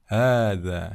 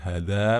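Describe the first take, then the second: First: The first vowel is held long. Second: The first vowel is cut short. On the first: The speaker calls it right. "dibaca panjang" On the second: The speaker calls it wrong. "bukan hadza"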